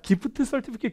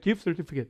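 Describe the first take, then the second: First: The phrase is said slowly and syllable by syllable. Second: The phrase is said quickly and run together. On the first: The speaker calls it wrong. "그러면 안 돼요" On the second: The speaker calls it right. "이렇게 빨라져요"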